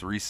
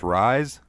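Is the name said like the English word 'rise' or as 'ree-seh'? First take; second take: ree-seh; English 'rise'. First: The name is said in two syllables, 'ree-seh'. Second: The name sounds like the English word 'rise'. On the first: This is the name's real pronunciation. The speaker calls it right. "but it's Rise, ... I like that pronunciation a lot" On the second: This is how the written name first looked. The speaker calls it wrong. "when I first saw her name, I was like, her name's Rise"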